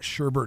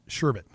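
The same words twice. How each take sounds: First: The second syllable has an R sound. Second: The second syllable has no R sound. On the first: The speaker calls it wrong. "It's not sherbet" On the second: The speaker calls it right. "There's no R. There's no no Bert in sherbet"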